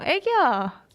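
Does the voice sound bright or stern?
bright. The voice sounds brighter and friendlier. The speaker calls it right. "저도 나름의 밝게"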